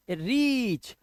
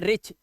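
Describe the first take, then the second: First: रीच with a long drawn-out "ee"; slow "reeech" on रीच, vowel held; correct long vowel. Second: रिच with a short "i"; short, cut vowel in रिच, like "rich"; wrong short vowel. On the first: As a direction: stretch the vowel of रीच slowly. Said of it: "लंबा sound लेके जाना है". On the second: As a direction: misread it as a quick रिच. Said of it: "इसे रिच नहीं पढ़ना है". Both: Shown as a demonstration.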